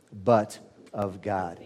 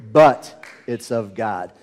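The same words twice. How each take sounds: First: Soft, slow "but of God" with an easy "but"; gentle but. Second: "but" punched louder in a slow "but it's of God"; abrupt but. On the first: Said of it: "a softer kind of a however". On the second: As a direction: hit "but it's of God" hard as a sudden reversal. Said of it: "We see that shocking reversal". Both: Shown as a demonstration.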